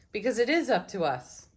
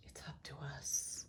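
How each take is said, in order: First: Said in the usual way. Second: Softly whispered repeat; a whispered echo of the card's message. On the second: Real, not acted. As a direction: breathe it out as a hushed echo. Card reading, repeats the message.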